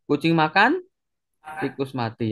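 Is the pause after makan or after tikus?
after makan. The pause comes after makan.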